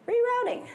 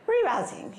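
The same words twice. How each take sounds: First: High, chirpy navigation voice; GPS voice. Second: Light, badly faked British accent; a hint of a British GPS voice; attempted British accent. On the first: Acted. GPS telling a driver of a new route, chirpy. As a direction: pitch way up, an unbothered GPS. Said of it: "be like your G P S system". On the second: GPS rerouting a driver, half-hearted British accent. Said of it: "put mine in a British accent".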